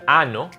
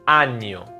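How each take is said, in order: First: The middle consonant is a plain n. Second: The middle consonant is a ny sound. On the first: The speaker calls it wrong. "It's not ano" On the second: The speaker calls it right. "it's año"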